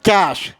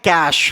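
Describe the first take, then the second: First: It has one syllable, ending in 'sh'. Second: It has one syllable, ending in 'sh'.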